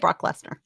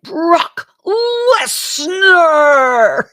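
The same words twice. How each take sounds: First: The name is said in a flat plain way. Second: The name is shouted with excited energy.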